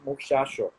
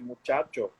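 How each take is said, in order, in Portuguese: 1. A consoante do meio é um som 'sh'. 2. A consoante do meio é um som 'ch'. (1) "é o som fricativo do C H" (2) "No lugar de dizer"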